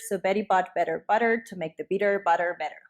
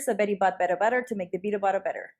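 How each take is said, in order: First: It is said at a slower, normal pace. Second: It is said at a faster pace.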